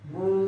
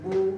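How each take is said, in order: First: The vowel is stretched out long. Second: The vowel is a short, clear u. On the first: The speaker calls it wrong. "টান দেওয়া যেমন বু" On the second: The speaker calls it right. "আমি আবার সুন্দর করে এই হরফের উচ্চারণ করতেছি"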